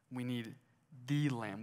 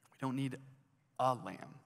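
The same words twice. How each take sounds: First: "the" set apart and said in full; pause, then lean on "the"; stress on THE. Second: "a" set apart after a short pause; pause, then a full, separate "a"; stress on A. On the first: Preacher naming the one Lamb needed, measured stress on "the". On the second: Preacher rejecting just any lamb, measured stress on "a". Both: Shown as a demonstration.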